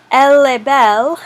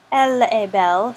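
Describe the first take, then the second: First: "Elle est belle" with est as a bare open e, linked into belle, louder; corrected French. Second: "Elle est belle" with the s and t of est sounded, a bit quick; read in Latin. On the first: Teacher correcting herself and modelling French for students. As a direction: fix it, say est as just e. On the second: Teacher slipping into Latin pronunciation while reading to students. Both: Shown as a demonstration. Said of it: "sorry, I read that in Latin".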